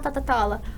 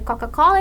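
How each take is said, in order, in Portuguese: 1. Os sons de K são trocados por sons de T. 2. A palavra usa sons de K em toda ela. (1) "ele fala Totatola" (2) "ao invés dele falar"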